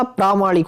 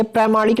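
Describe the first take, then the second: First: "प्रामाणिक" opening on long "praa". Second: "प्रामाणिक" with "prai" for "praa"; wrong first vowel. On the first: Teacher giving students the correction, प्रामाणिक with long "praa". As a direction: say प्रामाणिक as "praamaanik". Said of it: "आ बनेगा प्रामाणिक". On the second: Teacher showing students the mistake, प्रामाणिक said "praimaanik". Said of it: "ये प्रामाणिक नहीं होता". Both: Shown as a demonstration.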